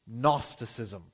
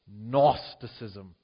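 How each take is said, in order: First: The word begins with an n sound. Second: The same.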